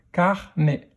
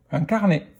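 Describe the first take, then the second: First: "carnet" split into car, nè; a small gap inside "carnet"; syllable by syllable. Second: Said in the usual way. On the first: Shown as a demonstration. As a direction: sound out "carnet" in two beats. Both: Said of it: "dans quelle syllabe".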